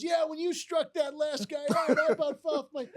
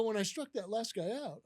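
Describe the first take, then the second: First: Loud, high, stretched-out gushing; excited boss. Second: Puzzled echo. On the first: Boss congratulating the supposed pitcher, excited. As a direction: imitate a boss raving about the game. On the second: Manager echoing his boss's mistake, puzzled. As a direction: repeat it back, baffled. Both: Retold or imitated.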